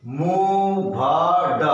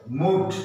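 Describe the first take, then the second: First: Very drawn out; sounded out slowly; slow syllable split. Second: Said in the usual way. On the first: Shown as a demonstration. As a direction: stretch the parts apart. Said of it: "slow split demo". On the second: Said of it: "क्या हो गया?".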